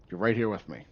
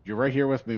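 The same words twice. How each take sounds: First: Said in the usual way. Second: Louder, higher, with emphasis on here; emphatic. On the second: Real, not acted. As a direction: stress here with excitement. Emphatic to Mary.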